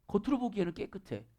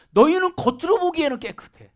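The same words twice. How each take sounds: First: Quiet knowing echo; soft echo. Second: Said in the usual way. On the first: Shown as a demonstration. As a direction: let 겉으로 보기에는 깨끗해 fall away to almost nothing. Repeated softly as an echo.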